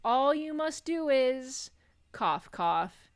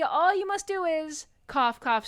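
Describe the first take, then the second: First: High slow ghostly voice, spoken coughs; dying ghost choking mid-sentence; overacted death scene. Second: Even higher strained ghost voice, louder coughs; dying ghost pushing harder through the coughs; overacted death scene, higher. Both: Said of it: "continues coughing".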